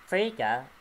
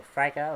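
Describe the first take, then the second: First: "Frigga" said FREE-guh, long ee. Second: "Frigga" said FRY-guh, long i; Frigga with EYE. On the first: Reviewer unsure of Thor's mother's name, "Frigga" as FREE-guh. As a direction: say "Frigga" with a first syllable like "free". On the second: Reviewer offering another guess at the name, "Frigga" as FRY-guh. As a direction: say "Frigga" with a first syllable like "fry". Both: Real, not acted. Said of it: "however you say it".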